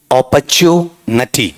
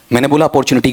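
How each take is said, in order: First: अपॉर्चुनिटी said slowly as opa-chu-na-ti, no r, ending in नटी; correct pronunciation. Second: अपॉर्चुनिटी said with a full r, the everyday Indian way; mispronounced opportunity. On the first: Teacher modelling the right way for students, slow and careful. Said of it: "शुद्ध उच्चारण क्या है?". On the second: Teacher showing students the wrong way to say it. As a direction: say अपॉर्चुनिटी the common wrong way, stressing the r. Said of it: "गलत उच्चारण बोला मैंने". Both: Shown as a demonstration.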